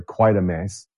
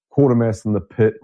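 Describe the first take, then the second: First: Quatermass opening with a "kway" sound; long gliding vowel starting Quatermass; corrected pronunciation of Quatermass. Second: Quatermass opening with a "kwaw" sound; rounded "aw" vowel starting Quatermass; first pronunciation of Quatermass. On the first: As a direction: say "Quatermass" as KWAY-ter-mass. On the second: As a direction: say "Quatermass" as KWAW-ter-mass. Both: Real, not acted. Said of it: "Quater-, sorry, Quatermass".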